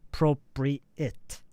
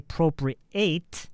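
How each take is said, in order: First: The final syllable sounds like 'it'. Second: The final syllable sounds like 'eight'. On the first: The speaker calls it right. "It finishes with it" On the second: The speaker calls it wrong. "You don't say appropriate. No, you don't do the eight"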